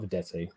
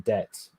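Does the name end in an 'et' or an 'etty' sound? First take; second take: etty; et. First: The name ends with an extra 'ee' vowel. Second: The name ends cleanly on the 't' sound. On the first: The speaker calls it wrong. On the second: The speaker calls it right.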